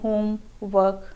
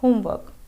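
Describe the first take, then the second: First: The two parts are said separately with a break. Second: The two parts are joined without any break. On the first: The speaker calls it wrong. "हम अलग अलग नहीं बोलते हैं होम work, हम ऐसा नहीं बोलते" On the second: The speaker calls it right. "हम बोलते हैं होमवर्क"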